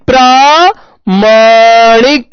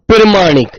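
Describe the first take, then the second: First: The first vowel is long, 'praa'. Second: The first vowel is short, 'pra'. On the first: The speaker calls it right. "आ की आवाज आनी चाहिए ना" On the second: The speaker calls it wrong. "ऐसे कर देता है बालक"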